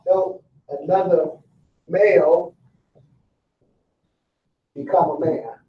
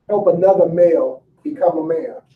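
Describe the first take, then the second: First: Each word slow, with long pauses between; slow emphatic. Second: Said in the usual way. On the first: Shown as a demonstration. Speaker driving the key line home to the inmates, slow and weighty. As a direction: lay it out word by word so it lands. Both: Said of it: "Did y'all catch that?".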